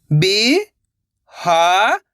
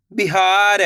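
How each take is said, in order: First: Very slow, stretched syllables, rising at the end; sounding out syllables. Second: Said in the usual way. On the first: Shown as a demonstration. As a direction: sound it out slowly, letter by letter. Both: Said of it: "एक एक अक्षर का उच्चारण करके".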